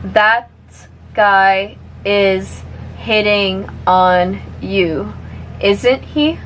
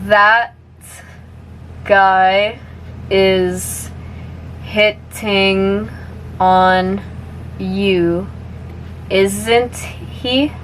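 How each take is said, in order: First: The sentence is spoken at a moderate speed. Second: The sentence is spoken slowly. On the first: "a little bit faster now" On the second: "I'll say it slowly first"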